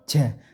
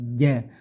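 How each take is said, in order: First: The j is said with a lot of air. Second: The j is said with little air. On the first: The speaker calls it wrong. "jimnya tidak pakai angin banyak ja" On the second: The speaker calls it right. "tapi ja"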